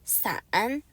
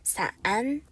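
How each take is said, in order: No difference in how they are said.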